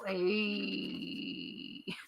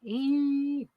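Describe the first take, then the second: First: It is said as a drawn-out, cool-guy 'ayyy'. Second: It is said plainly, as an ordinary letter name. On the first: "I can say it like the Fonz and go" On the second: "I just want to say it like that"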